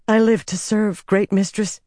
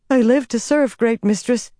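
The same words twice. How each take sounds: First: Quick, servile. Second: Much higher anxious submission; worried, servile. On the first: Servant bowing to a feared mistress, quick and servile. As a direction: hurry to show obedience in a raised pitch. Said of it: "Shiriam said quickly". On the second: Servant repeating her pledge to the figure, worried. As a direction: plead obedience with rising worry, pitched well up. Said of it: "growing more worried". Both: A narrator's reading.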